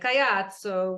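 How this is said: It is said the Italian way.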